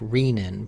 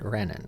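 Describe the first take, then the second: First: The first syllable sounds like 'ree' in renal. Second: The first syllable sounds like 'reh', not 'ree'. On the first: This follows the word's root. "probably should be pronounced renin" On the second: This is the common usage. "most people pronounce it renin"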